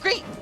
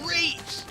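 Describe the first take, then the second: First: The voice sounds bright and really happy. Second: The voice sounds rough and rugged. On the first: "he sounds really happy" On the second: "Knuckles sounds like more rugged"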